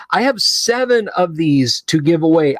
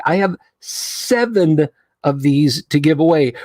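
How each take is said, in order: First: Said in the usual way. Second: "seven" stretched out for emphasis; stress on seven. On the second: Real, not acted. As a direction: draw out "seven", then finish the phrase. Repeats count for emphasis.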